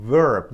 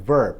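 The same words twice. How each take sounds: First: Verb with a flat Persian r; wrong verb. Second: Verb with the American r held back; correct verb. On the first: (verb را با ر فارسی غلط بگو) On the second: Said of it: "پس her و verb". (verb را با آر آمریکایی درست بگو) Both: Shown as a demonstration.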